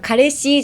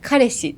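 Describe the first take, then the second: First: The pitch rises at the end of the word. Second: The pitch falls at the end of the word. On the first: The speaker calls it wrong. "じゃなくて" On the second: The speaker calls it right. "語尾をちょっとまあ下げて落ち着いて話したら"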